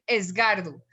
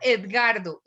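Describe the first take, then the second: First: The name is said with an s before g. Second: The name is said with a d before g. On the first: The speaker calls it wrong. "dicen Esgardo" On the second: The speaker calls it right. "diga Edgardo"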